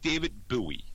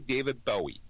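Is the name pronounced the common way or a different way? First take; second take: different; common. First: The name is pronounced a different way. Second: The name is pronounced the common way. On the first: This is how the speaker's parents said it. The speaker calls it wrong. "It was always [name]" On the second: This is how the name is normally said. The speaker calls it right. "my parents could never say [name]"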